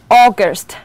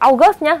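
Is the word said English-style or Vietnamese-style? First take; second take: English-style; Vietnamese-style. First: The word is said with an English long o. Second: The word is said with Vietnamese-style sounds. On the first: The speaker calls it right. "Chúng ta đọc author, August, đúng nhá" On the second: The speaker calls it wrong. "không đọc là author, August nhá"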